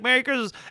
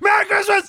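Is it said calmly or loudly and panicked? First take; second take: calmly; loudly. First: It is said calmly at normal volume. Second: It is said loudly, in a panicked voice.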